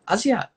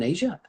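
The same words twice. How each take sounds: First: "Asia" said AH-zee-uh; correct name pronunciation. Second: "Asia" said AY-zhuh, like the continent; spelling pronunciation. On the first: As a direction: open AH and a z sound in "Asia". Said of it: "but it's pronounced Asia". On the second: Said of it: "Her name is spelled like Asia". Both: Real, not acted.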